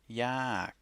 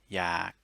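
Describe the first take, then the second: First: The word is said on a falling tone. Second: The word is said on a low tone. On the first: "it would be a falling tone" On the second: "it becomes a low tone"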